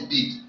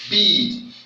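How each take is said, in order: First: The vowel is said short. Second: The vowel is said long. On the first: The speaker calls it wrong. "you can't call this bead" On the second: The speaker calls it right. "You call it bead"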